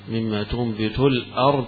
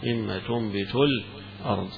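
First: The glottal stop before ard is clearly pronounced. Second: A tiny pause comes before the glottal stop. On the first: "بهذه همزة" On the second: "بالسكت"

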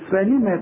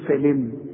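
First: The final m carries a vowel after it. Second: The final m is silent-voweled, ending on a consonant. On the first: The reader continues into the next word. "خلاص المين مفتوح، هقول فلم" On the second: The reader stops on the word. "سكن اخر حرف معاك تقول لي فلم"

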